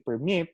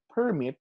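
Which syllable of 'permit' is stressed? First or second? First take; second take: second; first. First: The stress is on the second syllable. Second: The stress is on the first syllable. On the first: The word is used as a verb. "which is a verb, the stress is on the second syllable" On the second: The word is used as a noun. "if it is a noun, such as in the word permit, the stress is on the first syllable"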